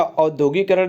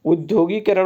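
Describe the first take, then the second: First: औद्योगिकरण opening on au; wrong form औद्योगिकरण. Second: उद्योगीकरण opening on short u; correct form उद्योगीकरण. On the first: Teacher rejecting the word, औद्योगिकरण with initial au. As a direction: start औद्योगिकरण with a broad au. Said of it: "औद्योगिकरण नहीं होगा". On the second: Teacher giving the right word, उद्योगीकरण with initial u. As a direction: start उद्योगीकरण with ud, not aud. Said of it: "उद्योगीकरण होगा". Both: Shown as a demonstration.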